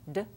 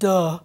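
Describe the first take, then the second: First: The consonant is short and light with no vowel. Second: The consonant is followed by a heavy uh vowel. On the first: The speaker calls it right. "We want d. ... Nice and light" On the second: The speaker calls it wrong. "We don't want duh"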